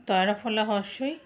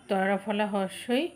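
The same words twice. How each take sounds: No difference in how they are said.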